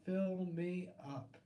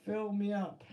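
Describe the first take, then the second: First: Slow, softer Fill me up; slow drawn out. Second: Said in the usual way. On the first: Shown as a demonstration. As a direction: Fill said slowly, stretched and softer. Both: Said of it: "That's for sure".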